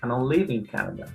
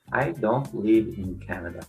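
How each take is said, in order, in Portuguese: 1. Só algumas palavras são acentuadas; as outras são reduzidas. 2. Toda palavra é acentuada igualmente. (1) "E o nativo" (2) "uma pessoa que se encontra no básico diria"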